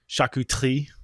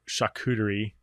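First: The word is said with a French-style pronunciation. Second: The word is said with an English-style pronunciation. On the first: The speaker calls it right. "The French would call it charcuterie. That's a terrible pronunciation, but it's better" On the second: The speaker calls it wrong. "some people call it charcuterie"

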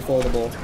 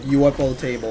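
First: It is said blended into one word. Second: It is said as UFO plus table. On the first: This is the preferred casual pronunciation. "I'd rather say Ufotable" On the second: This is the official pronunciation. "The real pronunciation of Ufotable is like pronounced like UFO table"

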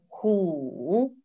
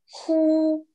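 First: The syllable is said in the third tone. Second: The syllable is said in the first tone. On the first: It means a tiger. "В третьем тоне ху, значит тигр" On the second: It means to exhale. "Ху в первом тоне значит выдыхать"

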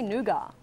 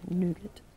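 First: Nougat is said in a non-American way. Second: Nougat is said in an American way. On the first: This is how the speaker says it. The speaker calls it right. "I say nougat" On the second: This is how Americans say it. The speaker calls it wrong. "Stupid Americans' pronunciation"

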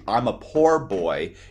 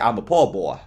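First: The R at the end of poor is pronounced. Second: The R at the end of poor is dropped. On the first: "instead of saying" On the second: "that's in the South, they leave off the R"

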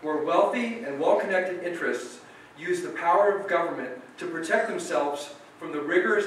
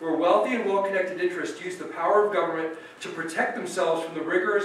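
First: It is read slowly. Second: It is read fast.

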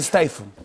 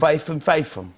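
First: The middle consonant is a TH sound. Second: The middle consonant is an F sound.

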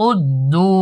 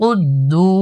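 The two takes are said the same way.

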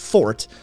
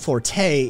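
First: It is said the British way, like fort. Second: It is said the Italian way, like for-tay. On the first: It means a strong suit or strong point. "a British pronunciation, F O R T E, meaning strong suit or strong point of defense, um, is pronounced fort" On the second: It means to play loudly in music. "The Italian uh, word, F O R T E, pronounced forte"

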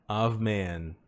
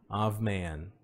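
The two takes are said the same way.

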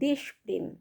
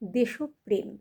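First: The first part ends on a bare consonant. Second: The first part ends with an added 'o' vowel. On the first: The speaker calls it wrong. "ভুলবশত উচ্চারণ করে থাকি" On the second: The speaker calls it right. "দেশ এই শব্দটা ওকারান্ত হয়ে যাবে"

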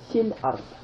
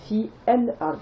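First: The 'el' vowel is swallowed, linking into fil. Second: The 'el' vowel is pronounced separately after fi. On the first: The speaker calls it right. "j'ai dit fil ard" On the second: The speaker calls it wrong. "j'ai pas prononcé fi el ard"

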